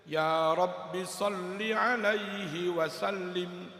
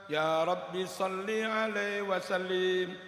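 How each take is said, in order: No difference in how they are said.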